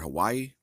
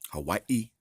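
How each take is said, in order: First: Hawaii is said the everyday English way. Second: Hawaii is said the native Hawaiian way.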